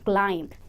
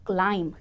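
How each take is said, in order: The two takes are said the same way.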